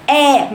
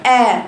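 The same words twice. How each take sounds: First: «آ» مفتوحة بفك نازل; أنزل الفك في «آ»; آ خاطئة. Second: «آ» يتصاعد صوتها للحنك الأعلى; ارفع «آ» إلى الحنك الأعلى; آ صحيحة. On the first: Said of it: "ده خطأ". («آ» بالنطق الخاطئ الهابط) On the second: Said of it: "صح، برافو عليك". («آ» بفتحة صحيحة غير نازلة) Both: Shown as a demonstration.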